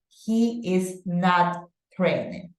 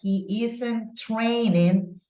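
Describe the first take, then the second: First: 'Is not' is said as two full words. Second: 'Is not' is contracted to 'isn't'. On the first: "you can also go with the full form" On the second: "She's using the contraction"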